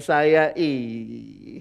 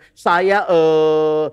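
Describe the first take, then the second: First: The pause after the word is filled with 'ee'. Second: The pause after the word is filled with 'eh'. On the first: This is how one slow-talking friend pauses. "jedanya bukan e, tapi i" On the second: This is how people usually pause. "kita tuh kalau ngomong ada jedanya"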